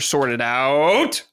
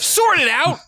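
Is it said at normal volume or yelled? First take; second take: normal; yelled. First: It is said at a normal volume. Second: It is yelled loudly.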